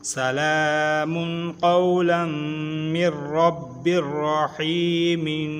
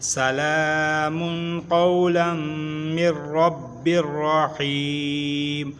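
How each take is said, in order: First: The last word ends with an added -in sound. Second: The last word ends on -eem with no ending. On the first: The reading continues without a stop. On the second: The reading stops at a pause point.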